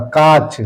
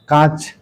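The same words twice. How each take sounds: First: काच said slowly, no nasal, as the right form; slow, clear काच without nasal; correct form. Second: कांच said with the nasal, the common wrong form; कांच with the nasal, marked as wrong. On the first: Teacher giving the correct काच slowly, without nasal. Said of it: "ये तत्सम सही शब्द है". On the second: Teacher saying कांच as the form pupils get wrong, nasal kept. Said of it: "ये गलत है". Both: Shown as a demonstration.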